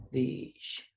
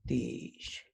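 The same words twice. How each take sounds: First: "dish" repeated clearly; Zapotec word repeated. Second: "dish" said softly and breathy; Zapotec word. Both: Shown as a demonstration. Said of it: "join me in saying the words".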